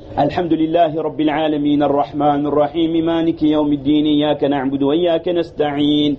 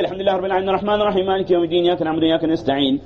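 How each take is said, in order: First: It is recited slowly and carefully. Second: It is recited quickly, in a rush.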